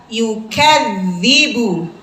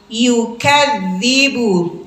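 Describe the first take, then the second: The two takes are said the same way.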